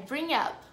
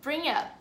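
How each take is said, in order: The two takes are said the same way.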